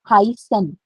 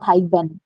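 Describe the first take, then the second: First: The middle consonant is an s sound. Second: The middle consonant is a b sound. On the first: The speaker calls it right. "So this word is called Hysen" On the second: The speaker calls it wrong. "It's not Hyben"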